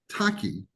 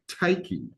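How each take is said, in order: First: The first vowel sounds like 'ah'. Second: The first vowel sounds like 'eye'. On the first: This is how the name is properly said. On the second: Someone with a Southern accent said it.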